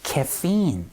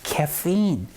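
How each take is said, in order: First: The word is said with an English pronunciation. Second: The word is said with an English pronunciation.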